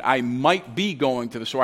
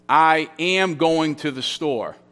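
First: Low-key, with "might be" picked out; stress on MIGHT BE. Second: Slow, firm stress on "am"; deliberate statement with "am" marked out. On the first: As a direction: mark the possibility in "might be". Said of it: "That's in the subjunctive mood". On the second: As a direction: state it as fact, leaning on "am". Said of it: "That's the indicative mood". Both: Shown as a demonstration.

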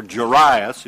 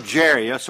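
First: Jairus said as "juh-RYE-us"; persnickety pronunciation. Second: Jairus said as "JAIR-ee-us"; everyday pronunciation. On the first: Preacher correcting the ruler's name, Jairus as "juh-RYE-us". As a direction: stress the middle of Jairus, "rye". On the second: Preacher reading the ruler's name, Jairus as "JAIR-ee-us". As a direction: say Jairus with stress on a first syllable "jair". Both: Shown as a demonstration. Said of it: "persnickety about the way you pronounce his name".

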